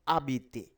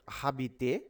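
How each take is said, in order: First: The word begins directly with a vowel sound. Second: The word begins with an audible h sound. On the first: The speaker calls it right. "because ash is phonetically silent" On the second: The speaker calls it wrong. "It is not habiter"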